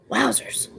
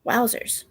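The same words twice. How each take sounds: First: "Wowzers" breathed out in a whisper; hushed whispered "Wowzers". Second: A softer voiced "wowzers"; quiet voiced "wowzers". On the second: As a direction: let "wowzers" drop quietly. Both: Real, not acted.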